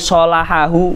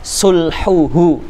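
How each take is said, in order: First: The word is read with a vowels: salahahu. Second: The word is read with u vowels: sulhuhu. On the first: The word is read as a verb. The speaker calls it wrong. "jangan dibaca" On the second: The word is read as a noun. The speaker calls it right. "Ini bukan fi'al"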